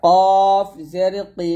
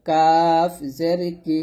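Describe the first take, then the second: First: Slow, thick কফ, then heavy কি; heavy qaf. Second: Light কাফ, then thin কি; thin kaf. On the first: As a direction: draw out কফ with a rounded vowel. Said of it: "কফটা মোটা হবে". (কফ মোটা করে টেনে) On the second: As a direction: say কাফ with an open, light 'aa'. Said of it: "কাফ পাতলা হবে". (কাফ পাতলা করে) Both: Shown as a demonstration.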